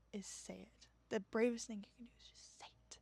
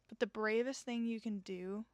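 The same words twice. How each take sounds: First: Whisper. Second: Said in the usual way. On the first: Shown as a demonstration. Host whispers encouragement to her listeners. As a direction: whisper it, barely voiced.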